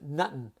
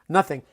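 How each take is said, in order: First: The middle consonant is a plain t sound. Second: The middle consonant is a th sound. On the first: It is a casual slang form. "We pronounce it nuttin" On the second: It is the standard form. "the slang way of saying, of course, nothing"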